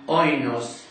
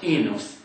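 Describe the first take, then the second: First: It is said with the older Erasmian pronunciation. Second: It is said with modern Greek pronunciation.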